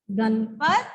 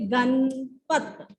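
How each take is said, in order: First: Said in the usual way. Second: Ganpat drawn out very slowly; slow dictation. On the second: Shown as a demonstration. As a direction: stretch Ganpat for the children. (Ganpat धीरे धीरे बोलकर) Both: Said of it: "Ganpat कैसे लिखेंगे?".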